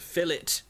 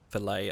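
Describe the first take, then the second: First: It ends in an "it" sound, t pronounced. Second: It ends in an "ay" sound, silent t. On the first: The speaker calls it right. "It's a fillet" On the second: The speaker calls it wrong. "That's an American pronunciation"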